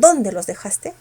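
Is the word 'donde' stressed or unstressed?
stressed. The word 'donde' is said with strong stress. It is a separate question asking where. The speaker calls it wrong.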